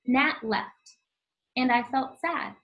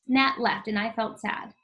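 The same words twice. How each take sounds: First: There is a short pause after "Nat left". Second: It runs on without a pause after "Nat left".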